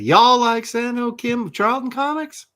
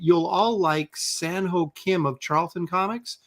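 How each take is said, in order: First: It is read in a Southern accent. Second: It is read in a plain West Coast accent.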